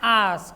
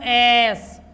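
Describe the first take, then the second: First: The vowel sounds like 'ah'. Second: The vowel sounds like 'eh'. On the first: The speaker calls it right. "क्या बोलना है आस" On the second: The speaker calls it wrong. "नहीं बोलो तुम एस, एस गलत है"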